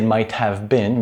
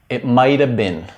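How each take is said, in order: First: Have is pronounced fully and separately. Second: Have is reduced, sounding like mighta. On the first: "you wouldn't really say it might have been" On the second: "you would usually hear somebody say something like"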